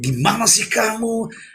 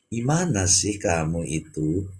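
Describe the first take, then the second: First: It sounds annoyed and reproachful. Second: It sounds soft and gentle.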